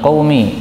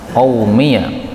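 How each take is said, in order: First: The word ends plainly on -mi. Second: The word ends with an added -ya syllable.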